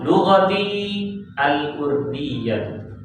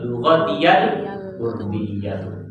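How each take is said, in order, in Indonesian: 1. Vokal i panjang diikuti berhenti. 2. Peluncur y menyambung kedua kata tanpa berhenti. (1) "Kalau mau baca waqaf" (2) "Yang betul lughatiyal urdiyatu. Dibaca wasal"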